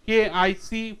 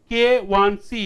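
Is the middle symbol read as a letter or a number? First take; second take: letter; number. First: The middle symbol is read as the letter I. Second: The middle symbol is read as the number one. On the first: The speaker calls it wrong. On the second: The speaker calls it right.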